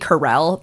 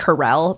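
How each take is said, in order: First: The stress is on the second syllable. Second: The same.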